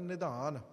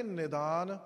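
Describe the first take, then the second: First: ਨਿਧਾਨ said with the aspirated, breathy ਧ sound "dh"; ਨਿਧਾਨ with aspirated dh, taught to children; correct pronunciation. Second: ਨਿਦਾਨ said with a plain unaspirated ਦ "d"; ਨਿਦਾਨ with plain d as the wrong example; wrong pronunciation. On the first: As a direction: say ਨਿਧਾਨ with a clear breathy dh, like a teacher. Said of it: "ਧੱਦੇ ਨਾਲ ਉਚਾਰਨ ਕਰਨਾ ਹੈ". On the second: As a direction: show the mistake: ਨਿਦਾਨ with a flat d, no breath. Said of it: "ਇਹਦੇ ਅਰਥ ਬਦਲ ਗਏ". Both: Shown as a demonstration.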